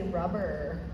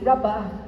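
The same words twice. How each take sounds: First: Said in an American accent with the final r. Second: Said in an English accent without the final r. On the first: "Americans would say rubber" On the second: "English people would say rubber"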